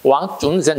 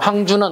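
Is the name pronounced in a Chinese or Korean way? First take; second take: Chinese; Korean. First: The name is read with Chinese sounds. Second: The name is read with Korean sounds. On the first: "중국식의 발음은 왕준센 이렇게 좀 악센트가 좀 달라집니다" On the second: "우리식의 발음은 항준원이 맞고요"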